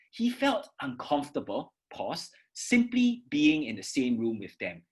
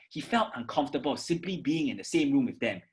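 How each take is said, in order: First: A clear break after uncomfortable; pause after uncomfortable. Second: Fast, run-on without breath; mock rushed read; rushed, no pause. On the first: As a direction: stop after uncomfortable, then go on. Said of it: "I pause after uncomfortable". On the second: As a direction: rush it all in one go. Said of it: "your pace becomes very fast". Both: Shown as a demonstration.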